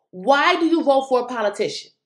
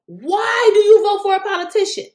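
First: Said in the usual way. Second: Higher, louder and more pointed; emphatic. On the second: Shown as a demonstration. Vlogger driving a point home to viewers, emphatic repeat. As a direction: hammer the question home to viewers. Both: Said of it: "repeats question louder".

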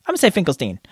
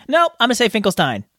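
First: "Finkelstein" ending in a long ee, like "steen"; "Finkelstein" pronounced FINK-el-steen. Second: "Finkelstein" ending like "stine", with a long i; "Finkelstein" pronounced FINK-el-stine. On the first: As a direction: say "Finkelstein" to rhyme with "seen". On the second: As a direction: say "Finkelstein" to rhyme with "fine". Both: Shown as a demonstration. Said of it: "Finkelstein or Finkelstein?".

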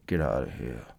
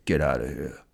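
First: "Get out of here." even lower and softer, mumbled from half the mouth; half-dead-face Rambo. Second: "Get out of here." said lower in a put-on action-hero voice; first try at the Rambo growl, lower. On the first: Retold or imitated. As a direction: say it like half your face is numb. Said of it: "Half my face needs to be dead". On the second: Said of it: "He says".

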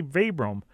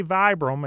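First: "Vibram" said VEE-brum; "ee" vowel in the first syllable of "Vibram"; long-E Vibram. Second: "Vibram" said VY-brum; "eye" vowel in the first syllable of "Vibram"; long-I Vibram. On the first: Host asks guest to pronounce it, "Vibram" as VEE-brum. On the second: Host asks guest to pronounce it, "Vibram" as VY-brum. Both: Shown as a demonstration. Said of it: "let you pronounce it".

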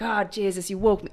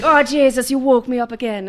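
First: A hint of an Irish husband grumbling at being woken; mild Irish accent joking about being woken. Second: Put-on higher, louder, laughing Irish accent; hammed-up Irish husband, laughing through it; laughing Irish accent, husband woken by crying. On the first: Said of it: "he's Irish. That's why I'm doing that voice". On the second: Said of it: "That's why I'm doing that voice".

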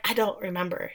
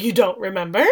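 First: Soft, low-key retold admission; evasive denial. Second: "You don't remember?" rising sharply at the end; incredulous echo question. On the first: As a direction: drop the voice, a small evasive answer. Retold evasive answer, then echoed back. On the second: Retold or imitated. He throws her answer back as question.

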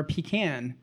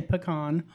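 First: Pecan said pee-CAN; pecan with a short A as in cat; Southern pecan. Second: Pecan said puh-KAHN; pecan ending like "con"; standard pecan. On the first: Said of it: "I sound really Southern". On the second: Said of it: "I say both". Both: Shown as a demonstration.

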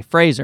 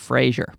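First: "Fraser" with a z sound in the middle; friend's name Fraser. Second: "Frasier" with a zh sound in the middle; show's name Frasier. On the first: Explaining the friend's name against the show's, "Fraser" with a z. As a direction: say "Fraser" like FRAY-zer. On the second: Correcting to the TV show's name, "Frasier" with a zh. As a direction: say "Frasier" like FRAY-zhur. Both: Shown as a demonstration. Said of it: "so now I say Fraser instead of Frasier".

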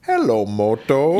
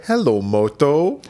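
First: Drawn-out Hello Moto; slow ringtone voice. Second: Slow, drawn-out ringtone voice; Motorola ringtone voice. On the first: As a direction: ringtone jingle, slowly. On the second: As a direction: imitate the phone jingle, slowly. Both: Retold or imitated. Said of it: "the Motorola ringtone".

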